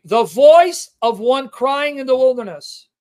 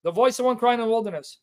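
First: Slow, louder proclaiming of the verse; emphatic scripture reading. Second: Said in the usual way. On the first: Acted. Preacher reading Isaiah aloud to the congregation, slow and proclaiming. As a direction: proclaim the prophecy slowly. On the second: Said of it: "Here's the prophecy".

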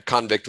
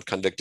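First: Convict stressed on the first syllable, CON-vict; noun stress. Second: Convict stressed on the second syllable, con-VICT; verb stress. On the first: Teacher showing the noun form, stressing CON in convict. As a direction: say convict as the noun, CONvict with a full ah vowel. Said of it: "convict was the noun". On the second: Teacher contrasting the verb, stressing VICT in convict. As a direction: say convict as the verb, weak first vowel, punch VICT. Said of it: "convict is the verb". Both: Shown as a demonstration.

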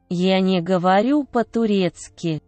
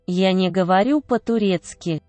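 The two takes are said the same way.

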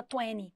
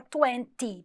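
First: TWENTY with the T dropped, "twenny"; twenty as Americans say it, "tweny"; American pronunciation. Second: TWENTY with a clear T, "twen-tee"; twenty said as spelled, T and all; sounded T. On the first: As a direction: say twenty without its second T. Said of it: "quase não pronuncia o T". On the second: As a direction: pronounce the second T in twenty crisply. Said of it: "porque tem T Y no final". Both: Shown as a demonstration.

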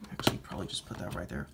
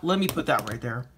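First: Muttered under the breath, much softer and faster; whispered aside. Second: Said in the usual way. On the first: Real, not acted. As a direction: whisper the correction to yourself. Mutters correction to himself.

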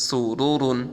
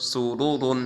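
The two takes are said the same way.

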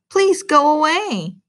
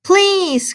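First: Pleading. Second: High, loud desperate "please"; pleading cry. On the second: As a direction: cry out, begging them. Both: Acted. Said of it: "cried Frog".

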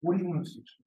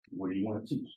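First: Pressing the question a third time, a little higher; insistent repeat. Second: Repeated probing question. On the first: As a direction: ask it again, insisting. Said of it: "Then I asked them again". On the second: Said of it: "My second question". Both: Retold or imitated.

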